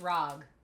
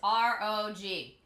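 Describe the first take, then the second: First: It is said as one word, rog. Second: It is said as three separate letters. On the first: The speaker calls it wrong. "Don't do that. They don't like that" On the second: The speaker calls it right. "It is R O G"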